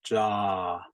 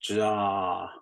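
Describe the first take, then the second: Both takes have the same delivery.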